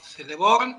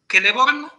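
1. El primer sonido es suave. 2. El primer sonido es una K dura. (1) "y no Celeborn" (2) "Siempre se pronuncia como K. ... siempre Celeborn"

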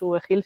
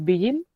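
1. La V se lee con su nombre de letra en español. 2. La V se lee con su nombre de letra en inglés. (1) "en mi cabeza no es VGil" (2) "sino es Vigil. ... en inglés se lee V"

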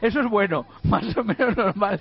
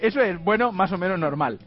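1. La pausa va después de 'bueno', no después de 'es'. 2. La pausa va después de 'es', y luego después de 'bueno'. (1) "la chica me había puesto una coma, y la frase leía" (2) "Yo entiendo que iba una coma"

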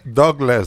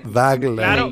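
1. Se dice de la forma actual y aceptada. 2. Se dice de la forma antigua, letra por letra. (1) "Pero se pronuncia Douglas" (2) "no Douglas"

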